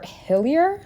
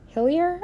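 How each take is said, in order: First: Said in the usual way. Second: Hillier repeated with a high questioning rise; unsure name. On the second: Shown as a demonstration. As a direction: say Hillier again, rising and unsure. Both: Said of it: "I think".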